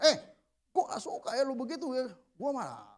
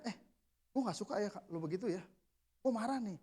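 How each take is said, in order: First: Higher, mildly confrontational complaint; wrong angry tone. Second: Soft, controlled complaint; calmly stated anger. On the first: Showing how not to confront a subordinate, mock angry tone. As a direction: demonstrate a heated tone to avoid. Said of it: "Tapi gitu nadanya, jangan". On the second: Telling a subordinate he dislikes it, calmly stated anger. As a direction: say you're angry without raising the voice. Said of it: "Tapi gitu nadanya". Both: Shown as a demonstration.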